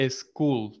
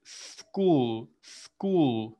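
First: School with an added E before the S, "eschool"; wrong pronunciation demo. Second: School drawn out slowly, starting on a long pure S; correct pronunciation demo. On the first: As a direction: say school the Spanish-speaker way, starting on an "es" syllable. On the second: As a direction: say school with a hissed "sss" and no vowel before it. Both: Shown as a demonstration. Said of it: "La pronunciación de escuela no es".

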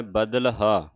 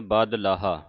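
First: ਬਦਲਹਾ as badal-haa, l closing the first part; correct pronunciation. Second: ਬਦਲਾਹਾ with a long laa before haa; wrong pronunciation. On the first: Teacher showing how haa attaches, correct pronunciation. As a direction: say ਬਦਲਹਾ with short badal, then haa, falling. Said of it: "ਇਹ ਸੰਬੰਧਕ ਉਚਾਰਨ ਕਰਨਾ ਹੈ". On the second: Teacher quoting how many congregations misread it, wrong pronunciation. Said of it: "ਬਦਲਾਹਾ ਉਚਾਰਨ ਨਹੀਂ ਕਰਨਾ". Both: Shown as a demonstration.

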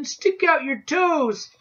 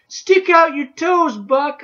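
First: Slow, high repeated scream; screaming again. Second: High, slow, desperate scream. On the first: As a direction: stretch out the desperate yell. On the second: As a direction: scream the warning, drawn out. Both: A narrator's reading. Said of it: "I screamed at him".

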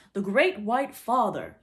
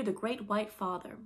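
First: Loud, slow lordly proclamation. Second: Said in the usual way. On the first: A narrator's reading. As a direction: pronounce it grandly, drawn out and loud. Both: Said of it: "in a very lordly manner".

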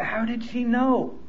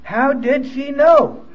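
First: Slow, soft wondering to himself; hushed puzzled musing; quiet inner thought. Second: How did she know said higher, louder and slow, leaning on know; slow, louder rhetorical question with know falling; emphatic repeat. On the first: Retold or imitated. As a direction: ask it under your breath, slowly. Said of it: "I thought". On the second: Shown as a demonstration. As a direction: hammer the question home to the room. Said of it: "repeated to the audience".

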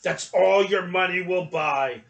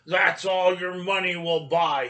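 First: Put-on louder gruff grumble, old shopkeeper voice; grumbled. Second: Louder, harsh shopkeeper voice. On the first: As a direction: grumble it, turning away from the boy. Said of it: "the man grumbled". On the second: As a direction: say it coldly and harshly. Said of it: "he said harshly". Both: A narrator's reading.

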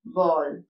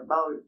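First: "ബോൾ" with a long O; correct pronunciation. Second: "ബൗൾ" with an OW sound as in owl; wrong pronunciation. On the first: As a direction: say "ബോൾ" lower, as bohl. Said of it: "ബോൾ എന്ന് തന്നെ പറയുക". ("ബോൾ" ശരിയായി "ഓ" നീട്ടി) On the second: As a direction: say "ബൗൾ" lower, as bowl rhyming with owl. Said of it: "പക്ഷെ അത് തെറ്റാണ്". ("ബൗൾ" തെറ്റായി "ഔ" ശബ്ദത്തിൽ) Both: Shown as a demonstration.

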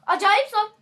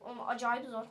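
First: High, loud outburst on "Acayip zor"; emphatic shout. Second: Said in the usual way. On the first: Real, not acted. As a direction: exclaim how hard it is, much louder. Repeats it as a shout.

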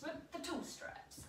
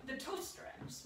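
First: Slow, soft whispered repeat. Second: Said in the usual way. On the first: Real, not acted. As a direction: whisper it slowly to yourself.

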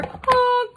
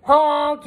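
First: High-pitched cry of a honk; pitched-up, mock-frightened honk; scared honk. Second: Loud honk at ordinary pitch; brash, forceful honk; yelled honk. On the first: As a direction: honk like a truck calling for help. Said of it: "and he sounded scared". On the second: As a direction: blare it like a truck horn. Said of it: "yelled the dump truck". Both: A narrator's reading.

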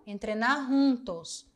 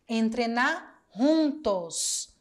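First: Said in the usual way. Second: Entrenar juntos said slowly, both words drawn out; slow model phrase. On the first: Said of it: "Olha aqui, esse entrenar juntos". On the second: Shown as a demonstration. Teacher modelling entrenar juntos slowly for students.

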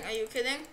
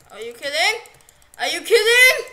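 First: Said in the usual way. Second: Building from loud to a much higher yell; outraged shout. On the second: Real, not acted. Gamer yelling at what just happened, rising to a shout. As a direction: blow up in disbelief. Player outraged at game event.

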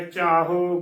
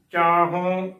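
First: ਚਾਹੋ with a plain o; demonstrated mistake, ਚਾਹੋ without bindi; wrong oral ending. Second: ਚਾਹੋਂ with nasalised last vowel; careful ਚਾਹੋਂ, bindi clearly sounded; correct nasal ending. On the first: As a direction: drop the nasal from the end of ਚਾਹੋ. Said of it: "ਗਲਤ ਉਚਾਰਨ ਹੋਵੇਗਾ". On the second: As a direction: hum the end of ਚਾਹੋਂ through the nose. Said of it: "ਸ਼ੁੱਧ ਉਚਾਰਨ ਹੈ". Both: Shown as a demonstration.

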